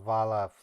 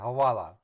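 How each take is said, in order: First: The second syllable begins with a V sound. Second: The second syllable begins with a W sound. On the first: The speaker calls it wrong. "not Havala" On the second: The speaker calls it right. "it's H A W A L A"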